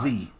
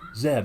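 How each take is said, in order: First: The letter is said as 'zee'. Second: The letter is said as 'zed'. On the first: "and not" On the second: "That's the way they pronounce it"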